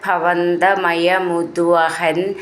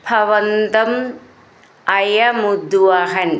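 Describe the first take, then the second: First: The two words are run together as one. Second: The two words are said separately.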